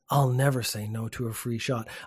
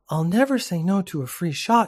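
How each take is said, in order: First: It is read in the reader's normal voice. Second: It is read in a put-on female voice.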